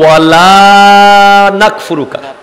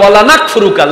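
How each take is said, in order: First: The vowel of 'la' is drawn out long. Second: The vowel of 'la' is cut short. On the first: We do not disbelieve. The speaker calls it right. "এরপর বলেন ওয়া নাশকুরুকা ওয়া লা নাকফুরুকা" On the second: We certainly disbelieve. The speaker calls it wrong. "লা যদি না টানে"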